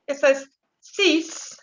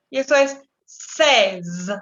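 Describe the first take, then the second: First: "six" con s final sorda, corta. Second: "seize" con z final sonora, zumbando. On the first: ("six" con ese sorda final) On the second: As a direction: marcar la zeta de "seize". ("seize" con zeta sonora) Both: Shown as a demonstration. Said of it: "A no confundir ... con six".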